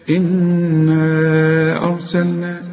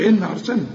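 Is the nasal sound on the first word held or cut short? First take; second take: held; cut short. First: The nasal sound on the n is held. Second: The nasal sound on the n is cut short. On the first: The speaker calls it right. "إن بمقدار حركتين" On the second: The speaker calls it wrong. "ما تقولش"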